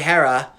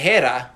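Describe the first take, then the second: First: The name has an American English pronunciation. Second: The name has a Greek-like pronunciation. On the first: "which is like the very American English way of saying it" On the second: "which is a lot closer to the way the Greek person would say it"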